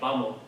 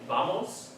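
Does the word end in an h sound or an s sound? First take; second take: h sound; s sound. First: The final s becomes a soft h. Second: The final s is fully pronounced. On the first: "they turned into like an H sound" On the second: "instead of saying vamos"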